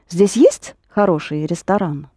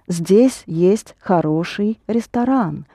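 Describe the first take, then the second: First: It is a question stressing есть. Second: It is said as a plain statement.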